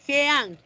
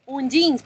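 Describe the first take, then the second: First: Jeans read as written, like xeans in Spanish; spelling-pronounced jeans. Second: Jeans said the English way, with a dj sound, as dʒins. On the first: Teacher shows how the word jeans is spelt. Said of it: "pero se escribe jeans". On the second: Teacher shows how the class should say jeans. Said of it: "Un jeans, pero se escribe jeans". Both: Shown as a demonstration.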